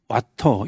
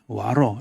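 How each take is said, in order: First: The middle t is a hard, crisp t. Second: The middle t is a soft flap.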